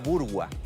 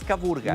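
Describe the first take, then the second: First: The last syllable is pronounced 'gwa' with 'w'. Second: The last syllable is pronounced 'ga' without 'w'. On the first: The speaker calls it right. "es Caburgua" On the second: The speaker calls it wrong. "No es Caburga"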